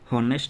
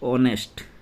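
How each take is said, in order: First: The word begins with an audible h sound. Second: The word begins directly with a vowel sound. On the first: The speaker calls it wrong. "हॉनेस्ट नहीं होता" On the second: The speaker calls it right.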